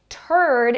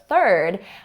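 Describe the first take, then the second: First: It starts with a plain t sound. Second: It starts with a th sound. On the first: The speaker calls it wrong. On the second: The speaker calls it right.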